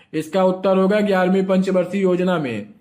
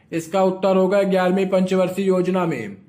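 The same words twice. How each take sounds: Both takes have the same delivery.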